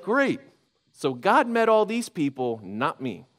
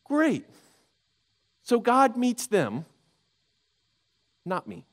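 First: A bitter, sarcastic "Great", then a drop on "not me"; bitter sarcasm. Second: Mock the luck of others, then sink; sharper bitter sarcasm. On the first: Retold or imitated. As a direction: say it like someone left out, wry and hurt. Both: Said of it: "he's like".

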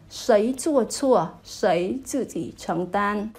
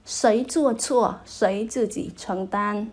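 First: Slow, careful Mandarin reading of "Sấy chua chua, sấy tự chỉ承tan"; Chinese demo. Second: Slow repeat of "Sấy chua chua, sấy chư chỉ承tan" as a model; Chinese recap. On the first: Teacher reading a Chinese idiom to viewers, slow and careful. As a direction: sound out "Sấy chua chua" slowly for learners. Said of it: "Chúng ta nói là". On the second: Teacher repeating the idiom for learners to copy, slowly. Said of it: "là gánh chịu cái trách nhiệm". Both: Shown as a demonstration.

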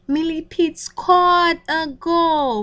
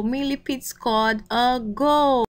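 First: Excited announcement. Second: Said in the usual way. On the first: A narrator's reading. Storyteller announces the goal.

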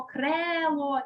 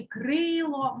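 First: Крело with a clear «е» in the first syllable; E variant shown. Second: Крило with a clear «и» in the first syllable; Y variant shown. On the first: Teacher weighs what is heard, крело with clear «е». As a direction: sound out «кре» distinctly in крело. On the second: Teacher weighs what is heard, крило with clear «и». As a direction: sound out «кри» distinctly in крило. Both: Shown as a demonstration. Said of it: "Ми чуємо".

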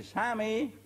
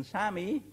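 First: Higher and a bit stronger call of Sami; louder shout. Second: A high calling shout, rising at the end; shouted name. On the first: Told to shout louder, soldier calls across, stronger shout. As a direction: push the call out harder. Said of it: "Schrei ein wenig lauter". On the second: Soldier calling over to the enemy trench, high calling shout. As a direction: call the name across the field. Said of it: "hat der geschrien". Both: Acted.

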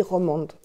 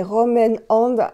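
First: 'Romande' run together as one French word, ro-MAND; Frenchified name. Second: The proper English 'Rom and Hand'; English brand name. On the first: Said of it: "moi, je dis Romande". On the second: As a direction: say 'Rom and Hand' as English words, slow and spaced. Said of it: "Mais c'est Rom and". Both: Shown as a demonstration.

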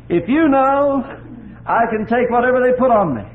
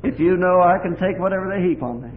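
First: Much higher and louder impassioned cry; the repeat swelling to a high, loud cry of trust. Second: A louder vow of trust; the first, lesser cry of trust to the Lord; tearful vow. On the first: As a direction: shout the vow to heaven. Prayer through tears, repeated climax. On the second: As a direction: declare it through the tears. Prayer through tears, first time. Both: Retold or imitated.

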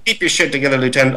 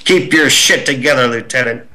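First: Captain Dye. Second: Lightly voiced stern officer; a hint of a drill captain scolding; Captain Dye's voice. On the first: Shown as a demonstration. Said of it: "give us one big line of Captain Dye's in your Captain Dye impersonation". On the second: Captain scolding the goofing lieutenant, lightly stern. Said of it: "heard this voice over my shoulder go".

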